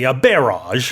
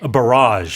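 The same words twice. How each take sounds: First: The stress is on the first syllable. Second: The stress is on the second syllable. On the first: This is the British way of saying it. "U K you say a barrage" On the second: This is the North American way of saying it. "the stress is on the second syllable"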